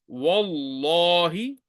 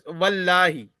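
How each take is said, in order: First: The L sound is heavy and thick. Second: The L sound is light and thin. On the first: The speaker calls it right. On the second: The speaker calls it wrong. "You will not pronounce it as"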